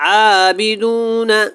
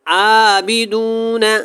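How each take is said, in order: No difference in how they are said.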